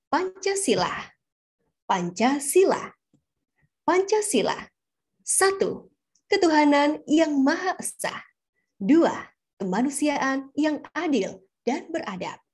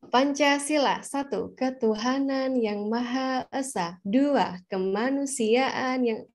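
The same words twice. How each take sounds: First: "Pancasila" declaimed with lifted, moving pitch and pauses; proper varied intonation. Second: "ketuhanan yang Maha Esa" slow and evenly stretched; rote recital intonation. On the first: Teacher showing proper Pancasila reading, varied intonation. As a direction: proclaim "ketuhanan yang Maha Esa" firmly, phrase by phrase. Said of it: "kita bisa kasih intonasi yang tepat". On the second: Reciter from primary-school habit, slow rote intonation. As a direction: drone "Pancasila" through like a schoolchild's recital. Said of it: "intonasi yang udah tertanam sejak kita masih S D".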